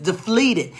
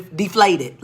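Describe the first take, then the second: First: Slow, stumbling "deflated" said as de-FLEE-ted; tongue-tied slip. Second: Said in the usual way. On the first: Real, not acted. Teacher tripping over "deflated" as de-fleeted, tongue-tied. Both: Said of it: "I can't say talk now".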